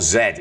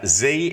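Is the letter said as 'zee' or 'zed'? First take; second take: zed; zee. First: The letter is said the British way, 'zed'. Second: The letter is said the American way, 'zee'.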